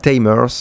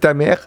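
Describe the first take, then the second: First: It is said with a Japanese pronunciation. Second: It is said with a French pronunciation. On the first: "ou Tamers en japonais" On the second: "En français, ça se dit Tamer"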